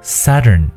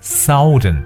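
First: The first vowel is a short central 'uh' sound. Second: The first vowel is the 'ow' sound of south. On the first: The speaker calls it right. "南方的这个词呢我们叫Southern ... 就是这个中元音啊的发音" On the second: The speaker calls it wrong. "千万不要读成southern ... 这个南方的名词叫south, 所以形容词就是southern, 那就错了"

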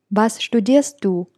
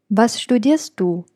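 Both takes have the same delivery.

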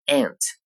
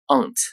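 First: It is said in an American English accent. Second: It is said in a British English accent. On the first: "美式英语中发作 aunt" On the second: "英式英语中发作 aunt"

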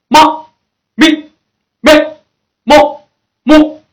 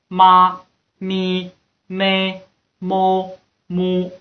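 First: It is said with strong, punchy force. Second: It is said flat, with little force. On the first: The speaker calls it right. "注意好像我们打拳一样，注意我这个力度啊" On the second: The speaker calls it wrong. "绝对不是这样的平平淡淡的这样"

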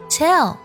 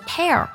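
First: The word ends with a full lateral L sound. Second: The word ends without a full lateral L sound. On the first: The speaker calls it right. "是以舌侧音重音收尾的" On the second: The speaker calls it wrong. "不要读作tell"

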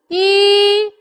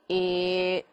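First: The voice is mid-pitched, clear and relaxed. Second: The voice is low-pitched and murky. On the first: The speaker calls it right. "还不错，我觉得很舒服，我很自如" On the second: The speaker calls it wrong. "这个声音浊了吧？这就叫做低而浊的声音"

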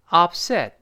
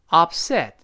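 No difference in how they are said.

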